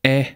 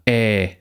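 First: "Ä" as a brief open e; short Ä. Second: "Ä" as a long open e. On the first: Lecturer shows a barely differing pair, short Ä. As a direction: keep "Ä" short. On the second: Lecturer shows a barely differing pair, long Ä. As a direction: hold "Ä" out. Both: Shown as a demonstration.

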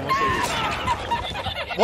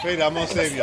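First: Laughing squeal. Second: Said in the usual way. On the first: Pretend. Repeats rescue promise in funny voice.

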